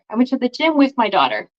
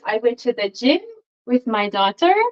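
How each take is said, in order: First: The sentence has a natural English intonation. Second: The sentence has a French-style intonation. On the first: The speaker calls it right. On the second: The speaker calls it wrong.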